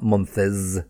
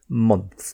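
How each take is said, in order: First: The word is said with two syllables. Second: The word is said with one syllable. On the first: The speaker calls it wrong. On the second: The speaker calls it right.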